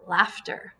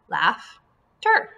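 First: Said in the usual way. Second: "Laughter" broken in two, LAUGH, pause, TER; split into syllables. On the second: Shown as a demonstration. Teacher breaks up the word for pupils, "Laughter" in separate syllables. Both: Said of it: "this is going to be one syllable".

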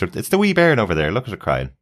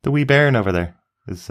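First: Broad Scottish wee bairn; broad Scottish accent. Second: Lilting Scottish accent on wee bairn. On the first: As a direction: show how a Scot says it. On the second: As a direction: say it like a Scot. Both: Shown as a demonstration. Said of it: "In Scotland, Scottish".

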